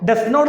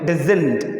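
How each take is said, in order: First: It is said as two full separate words. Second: It is said as one contracted word. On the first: The speaker calls it wrong. "ഡസ് നോട്ട് എന്ന് പറയരുത്" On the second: The speaker calls it right. "Short form"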